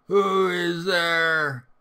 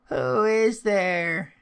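First: Loud, very drawn-out call in a raised voice; wolf's gruff call. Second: High, loud, drawn-out call; old grandmother calling. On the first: Wolf in grandmother's bed calling to the door, loud gruff attempt. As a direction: call out slowly and loudly as the wolf. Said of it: "hearing the gruff voice of the wolf". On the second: Grandmother calling to someone at the door, high and drawn out. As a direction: call out slowly in a raised, high voice. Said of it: "said some voice in the house". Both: A narrator's reading.

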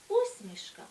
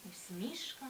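First: Усмішка, stress on the first syllable У, said high; higher, louder take of усмішка; first stress variant. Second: УсмІшка, stress on the second syllable І, said softly; whispered take of усмішка, stressing І; second stress variant. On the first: (перший варіант: Усмішка) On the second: (другий варіант: усмІшка) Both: Shown as a demonstration. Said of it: "які мають подвійний наголос".

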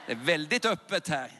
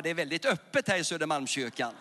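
First: "Det är väldigt öppet här" shouted out at full volume. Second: Said in the usual way. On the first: Real, not acted. Preacher calling to the packed church, shouting. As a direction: throw it out to the back of the hall. Repeats line then shouts.

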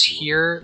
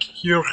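First: Said in the usual way. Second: "here" with a rough throaty ending, imitating a Turkish accent; professor's accent on "here". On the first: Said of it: "he says here, like, here". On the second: Gamer showing how his professor says "here", imitated accent. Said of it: "I can only do the, the accent sometimes".

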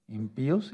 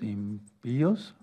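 First: "impíos" con la í tónica; acento en la í. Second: "impíos" muy lento, partido en im-píos; acento de ruptura. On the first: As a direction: marca la í de "impíos", separada de la o. (acento de hiato en "impíos") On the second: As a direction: alarga la palabra "impíos" rompiendo el diptongo. ("impíos" silabeado, con la í tónica) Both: Shown as a demonstration. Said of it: "es acento de ruptura".

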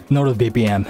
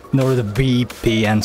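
First: Said in the usual way. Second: NordVPN sounded out more slowly; careful retry. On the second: Real, not acted. Streamer struggles with a sponsor's name, careful NordVPN. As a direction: take a careful second go at NordVPN. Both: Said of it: "sorry, I can pronounce that".

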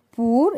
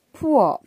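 First: "poor" said pur; "poor" with a short u; wrong "poor". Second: "poor" said like pour; "poor" with a rounded o; correct "poor". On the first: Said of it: "We don't read it". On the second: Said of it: "It is read as". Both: Shown as a demonstration.

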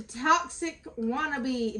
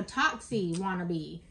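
First: Said in the usual way. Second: Toxie wannabe said as TOX-ee, slowly; corrected pronunciation. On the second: Real, not acted. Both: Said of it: "no, toxie wannabe".

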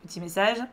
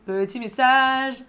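First: Said in the usual way. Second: Sung, slow, higher singsong "Petit message."; sung, lilting notification call. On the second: Pretend. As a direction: chant "Petit message." playfully. Repeats it in a playful sung tone.

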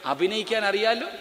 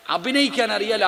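First: അറിയാലോ lifted with a rising end; stress on അറിയാലോ. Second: അഭിനയിക്കാൻ hit first and firm; stress on അഭിനയിക്കാൻ. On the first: Preacher urging the congregation, stress on അറിയാലോ. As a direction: lean on അറിയാലോ as a question to the crowd. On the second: Preacher pressing the congregation, stress on അഭിനയിക്കാൻ. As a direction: punch അഭിനയിക്കാൻ to make the point. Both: Shown as a demonstration.

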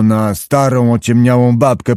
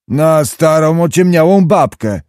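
First: Said in the usual way. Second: "starą, ociemniałą babkę" repeated higher and held up; higher, emphatic repeat of "starą, ociemniałą babkę"; insistent repetition. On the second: A narrator's reading. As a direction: say "starą, ociemniałą babkę" pitched up, for someone who missed it. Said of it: "powtórzył pan Zagłoba".

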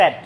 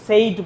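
First: Said with a short e, like sed; teacher's correct said. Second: Said with a long ay vowel, as Bengali students say it; wrong Bengali-student said; mispronounced said. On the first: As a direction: model the right said clearly. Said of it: "উচ্চারণটা হচ্ছে said". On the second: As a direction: imitate the common wrong said. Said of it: "said-কে কিন্তু said বলে বাঙালি". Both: Shown as a demonstration.

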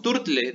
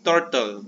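First: Turtle said as turtle-e, with an E sound at the end; wrong extra E. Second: Turtle said as tortol, ending on the L with no vowel after it; no final E. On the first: Teacher showing the wrong way to say turtle, with an extra E. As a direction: end turtle with an added E, tur-tle. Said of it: "no decimos turtle". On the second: Teacher showing the correct turtle, ending on the L. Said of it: "decimos turtle". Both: Shown as a demonstration.

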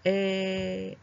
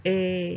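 First: Long え with a wide-open mouth; open-vowel え, held out. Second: え with a narrower mouth. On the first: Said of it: "もうちょっと口を広くして". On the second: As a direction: keep the opening slim for え. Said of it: "三番はもうちょっと細く、". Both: Shown as a demonstration.

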